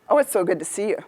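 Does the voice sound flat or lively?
flat. It is flat, quiet and without pitch changes. The speaker is not really engaged. "I'm not giving you any volume, any pitch change, any variety"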